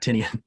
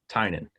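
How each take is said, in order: First: The name is said as Tinian. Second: The name is said as Tynan. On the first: The speaker calls it wrong. "not not Tinian" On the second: The speaker calls it right. "The p- correct pronunciation is Tynan"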